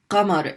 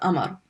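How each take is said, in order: First: The word begins with a deep q sound. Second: The word begins with a glottal stop. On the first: "There's qamar, is moon" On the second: "in many dialects, people pronounce it amar"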